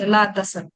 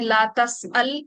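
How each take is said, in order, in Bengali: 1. গ্লটাল স্টপ নেই; শব্দটা ছোট হয়ে tasal হয়ে যায়। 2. একটা গ্লটাল স্টপ tas'al-এর শব্দাংশ আলাদা করে। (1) "এটার আরেকটা ছোট ভার্সন আছে" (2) "এটা হচ্ছে স্বাভাবিকটা"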